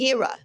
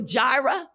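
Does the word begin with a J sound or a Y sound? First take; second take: Y sound; J sound. First: The word begins with a Y sound. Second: The word begins with a J sound. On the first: "It's really Yirah" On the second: "so often we say that word Jehovah Jireh"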